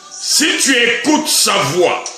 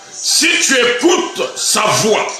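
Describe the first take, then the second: Both takes have the same delivery.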